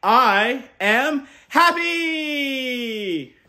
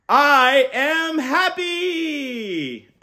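First: Very slow, loud, much higher held cheer. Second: Very slow, loud and much higher; rousing cheer to repeat. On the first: Uncle modelling a cheer for kids, very slow. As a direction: cheer it out long and bright. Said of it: "jump out of bed and cheer". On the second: Uncle leading kids in a cheer, loud and slow. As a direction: stretch the cheer so kids join. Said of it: "On the count of three". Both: Shown as a demonstration.

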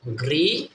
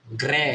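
First: "গ্রি" with hard g and ee vowel; GRE read as "gri". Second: "গ্রে" with hard g and e vowel; GRE read as "gre". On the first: Teacher shows first reading of GRE, ee sound in "গ্রি". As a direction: say "গ্রি", rising, ending in ee. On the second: Teacher shows second reading of GRE, e sound in "গ্রে". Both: Shown as a demonstration. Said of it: "জি আর ই কি হবে?".

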